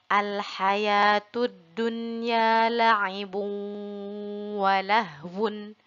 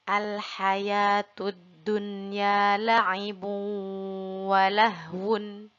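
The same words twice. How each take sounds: Both takes have the same delivery.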